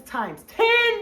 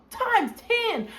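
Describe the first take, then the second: First: Said in the usual way. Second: Times ten repeated much higher with TIMES punched; stressed repeat. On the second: Acted. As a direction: hit Times ten harder the second time.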